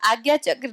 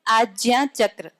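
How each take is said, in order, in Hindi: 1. पहले शब्द में g-y वाली आवाज़ है। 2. पहले शब्द में j-y वाली आवाज़ है। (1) "आज्ञा चक्र नहीं" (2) "शुद्ध उच्चारण उसका आज्ञा चक्र है"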